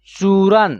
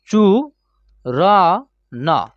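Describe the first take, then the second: First: Said in the usual way. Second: चू र न split into separate slow syllables. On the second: Shown as a demonstration. Teacher spelling the word out syllable by syllable for students. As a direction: break चूरन apart, one syllable at a time.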